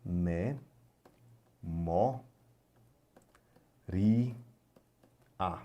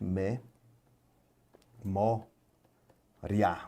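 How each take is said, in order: First: "Me, mo, ri, a" as four separate beats, ri and a split apart; alternative syllable split. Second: "me, mo, ria" spoken slowly as three syllables with pauses; natural syllable split. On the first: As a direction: slowly tap out "Me, mo, ri, a" in four syllables. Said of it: "Ou você pode separar eventualmente". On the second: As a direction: break "memória" into three beats, me, mo, ria. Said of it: "Você vai separar naturalmente". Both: Shown as a demonstration.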